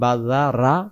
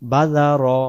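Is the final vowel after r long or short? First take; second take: long; short. First: The final vowel after r is drawn out long. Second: The final vowel after r is kept short. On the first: The speaker calls it wrong. "তাহলে র এর এই অক্ষরটা রা হয়ে গেল" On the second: The speaker calls it right. "উচ্চারণ বাজা র"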